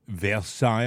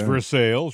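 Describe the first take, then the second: First: The name is said with a French pronunciation. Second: The name is said with an English pronunciation. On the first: The speaker calls it wrong. "I pronounced it Versailles en français" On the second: The speaker calls it right. "it's Versailles, right?"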